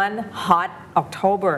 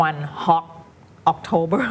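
First: HOT ending in a clear T before October; careful "one hot October", T kept; corrected final T. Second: HOT said as "hock" before October; imitated slip, "one hock October"; rushed mispronunciation. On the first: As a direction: finish the T of HOT, then October. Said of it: "มันกลายเป็น hot จริงๆ". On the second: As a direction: swallow the T of HOT into a K. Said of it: "เร่งไปนิดนึง แล้วก็จะกลายเป็น". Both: Shown as a demonstration.

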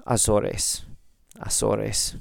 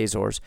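First: Azores as ah-SOR-ess; Spanish pronunciation. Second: Azores as AY-zorz; English pronunciation. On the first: Podcaster trying the place name, Spanish-style Azores. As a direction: say Azores with S sounds, three syllables. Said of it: "if we're speaking Spanish". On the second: Podcaster reading a listener's location, Azores in English. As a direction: say Azores the English way, two syllables. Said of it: "he says the Azores". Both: Shown as a demonstration.

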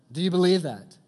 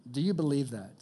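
First: Loud, high, demanding the answer; louder second ask. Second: Said in the usual way. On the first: Shown as a demonstration. Preacher asking the crowd again, louder and higher. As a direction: call it out to the room. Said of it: "louder second ask". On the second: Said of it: "first ask".

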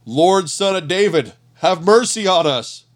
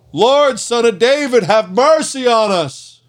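First: Raised voice calling out for mercy; shouting. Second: High, loud desperate cry, slowing on mercy; shouting louder. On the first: Blind men begging Jesus from the roadside, raised voice. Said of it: "they began shouting". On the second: Blind men drowning out the crowd, high loud cry. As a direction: cry out over the crowd, much higher and louder. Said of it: "they only shouted louder". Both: A narrator's reading.

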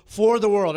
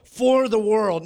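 First: "For the World" as a loud, high title; "For the World" proclaimed with a fall; title announced. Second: "For the world" slow, loud and high; "For the world" preached with weight; emphatic repeat. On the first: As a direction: present "For the World" boldly. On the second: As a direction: drive home "For the world" slowly. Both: Shown as a demonstration. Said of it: "Everybody say".

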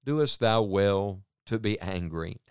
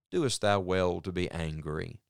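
First: Slow, gentle fatherly question; patient father. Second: Patient father. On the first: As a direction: ask it patiently, like a father to a child. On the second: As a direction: ask gently like a patient father. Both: Retold or imitated. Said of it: "speaking like a very patient father".

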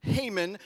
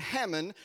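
First: Haman said "HAY-mun"; long-a pronunciation. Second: Haman said "HAM-un"; short-a pronunciation. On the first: Preacher corrects to the other option, Haman as "HAY-mun". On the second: Preacher names the prime minister, Haman as "HAM-un". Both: Shown as a demonstration. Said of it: "however you wanna say it".

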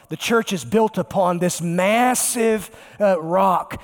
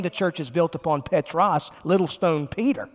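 First: "massive" stretched out slowly with weight; slow down and lean hard on "massive"; stress on MASSIVE. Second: Said in the usual way. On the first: Shown as a demonstration. Preacher correcting who the church is built on, drawn-out stress on massive. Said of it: "this massive rock". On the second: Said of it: "It means little stone".

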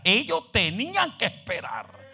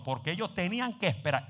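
First: Louder, slower repeat of "tenían que esperar"; building emphasis. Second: Said in the usual way. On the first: Shown as a demonstration.

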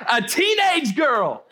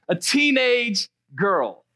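First: Proclaimed slowly at full volume; shouted punchline. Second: Slow, chuckling echo of the punchline; rueful laugh through the words; laughing repeat. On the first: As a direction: hit it hard and drawn out for the room. Punchline of the reveal, repeated. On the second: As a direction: let the laugh carry it, unbelieving. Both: Real, not acted.

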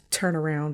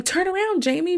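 First: Said in the usual way. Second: High-pitched imitation of urging the screen; quoted movie-watcher's plea; Randy's urging. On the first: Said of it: "because he's instructing Jamie Lee Curtis's character". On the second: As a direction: call it out high, as a mock warning. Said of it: "Randy keeps saying".

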